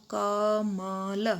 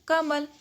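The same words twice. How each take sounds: First: कमल said very slowly, letter by letter; slow, spelled out. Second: कमल said as one word, higher and louder; whole word, emphatic. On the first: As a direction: drag कमल out slowly, sound by sound. (कमल को धीरे धीरे अक्षर अलग करके बोलना) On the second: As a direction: announce कमल as one word, loud and high. (कमल को एक साथ ऊँचे और ज़ोर से बोलना) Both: Shown as a demonstration. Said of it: "तो तीनों के एक साथ बोलेंगे".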